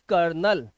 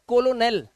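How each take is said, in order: First: It is said with two syllables, ker-nel. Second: It is said with three syllables, ko-lo-nel. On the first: The speaker calls it right. "We pronounce this word as कर्नल" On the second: The speaker calls it wrong. "देखने में लगता है कोलोनेल, but it's not कोलोनेल"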